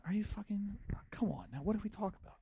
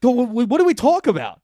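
First: Half-whispered, softer and higher, urgent; hushed hiss. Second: Stammering loud yell, much higher; drunk shout. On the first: Boyfriend hissing at his girlfriend in a hushed, higher voice. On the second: Drunk boyfriend yelling at girlfriend in front of a roomful of people. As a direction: shout it stumbling over the first word. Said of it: "What really happened was I went". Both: Retold or imitated.

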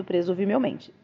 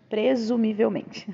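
First: Said in the usual way. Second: "Presumivelmente" slowly, syllable by syllable; "Presumivelmente" reread with deliberate, drawn-out care; careful articulation. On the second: A narrator's reading. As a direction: enunciate "Presumivelmente" slowly and clearly. Word reread more carefully.

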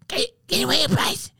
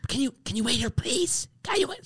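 First: Much higher, pushier stage whisper at full level; the same plea, now a loud voiced whisper; mock loud whisper, voiced. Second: High, hushed but pushy plea; mock loud whisper. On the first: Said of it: "trying to get loud and whisper". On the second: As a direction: imitate a woman stage-whispering too loudly. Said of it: "she's whispering".

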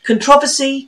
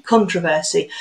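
First: Controversy with stress on the second syllable, con-TROV-ersy; mum's corrected pronunciation. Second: Controversy with stress on the first syllable, CON-tro-ver-sy. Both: Shown as a demonstration. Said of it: "she was always correcting my speech".

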